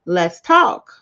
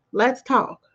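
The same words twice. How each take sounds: First: Let's talk, louder, with a rising lift on talk; catchphrase call-out. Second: Let's talk, falling and settled, weight on Let's; catchphrase settled. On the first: To podcast listeners, the slogan called out with a rise. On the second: To podcast listeners, the slogan repeated with a fall. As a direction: land Let's talk down, calm and final. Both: Shown as a demonstration. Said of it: "I'm always saying".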